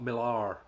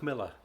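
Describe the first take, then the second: First: The last syllable is a full 'lar'. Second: The last syllable is a reduced 'ler'. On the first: The speaker calls it wrong. "when it's spelled with an A, it's not Millar" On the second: The speaker calls it right. "it's Miller"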